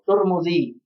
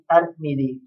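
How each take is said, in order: First: Both the first and second vowels are u. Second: The first vowel is a, the second i. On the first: "dengan tak yang di dhammah dan mim yang di dhammah" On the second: "dengan tak yang di fathah tetapi mim di kasrah"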